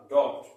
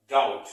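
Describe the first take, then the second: First: Loud "डाउट" with a sounded B before the T; mispronounced doubt. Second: "डाउट" with no B, said loud; loud, correct "डाउट" with the B dropped; silent B. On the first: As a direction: sound the silent B in "डाउट", like "daubt". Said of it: "अगर इसका गलत pronounce". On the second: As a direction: say "डाउट" like "dout", gliding straight into the T. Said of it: "यहाँ पर भी बी". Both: Shown as a demonstration.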